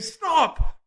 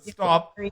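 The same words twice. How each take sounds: First: The word is said loudly and forcefully. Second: The word is said flatly and calmly. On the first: The speaker calls it right. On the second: The speaker calls it wrong.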